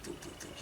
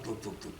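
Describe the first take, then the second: First: Tuk, tuk, tuk, breathed out as a whisper with no voice; whispered clicking noise. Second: Quiet tuk, tuk, tuk, said softer, like a coaster climbing; soft clicking noise. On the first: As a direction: let the tuk fade into a bare whisper. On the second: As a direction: click it out softly, like the chain pulling the car up. Imitating the slow coaster clicks. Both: Retold or imitated.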